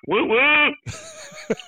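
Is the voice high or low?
low. It is said in a lower voice.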